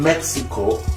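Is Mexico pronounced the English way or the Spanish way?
English. Mexico is pronounced with an English pronunciation.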